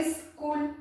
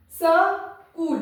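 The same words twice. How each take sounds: First: स्कूल said as "is-kool", half s. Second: स्कूल split slowly as "sa-kool"; full sa. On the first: Teacher giving the word she dictated, स्कूल as "is-kool". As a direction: lead into स्कूल with "is", no vowel after s. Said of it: "इस मतलब आधा स है". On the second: Teacher reading a pupil's misspelling, स्कूल as "sa... kool". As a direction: read स्कूल with a full स, then pause before कूल. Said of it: "तो मैं इसको पढ़ती हूँ". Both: Shown as a demonstration.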